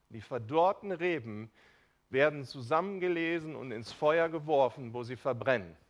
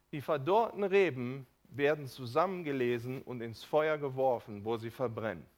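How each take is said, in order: Both takes have the same delivery.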